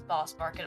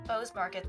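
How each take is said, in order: First: The name has a short vowel, like 'boss'. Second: The name has a long 'oh' vowel, like 'bose'. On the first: The speaker calls it wrong. "I almost read that as Boss Market" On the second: The speaker calls it right. "there's an E there"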